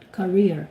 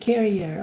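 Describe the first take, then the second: First: It sounds like 'career', ending in '-eer'. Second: It sounds like 'carrier', with three syllables. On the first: The speaker calls it right. "I always talk about career" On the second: The speaker calls it wrong. "we always say carrier"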